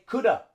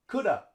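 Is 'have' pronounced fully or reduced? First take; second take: reduced; reduced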